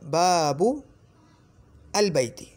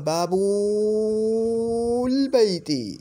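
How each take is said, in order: First: The article is said separately with its own vowel. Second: The article is joined to the first word. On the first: The speaker calls it right. "जब मैं बीच में रुक गया, बाबू कह के रुक गया" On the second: The speaker calls it wrong. "या यूँ नहीं बोलूँगा बाबुल बैती, इस तरह नहीं बोलूँगा"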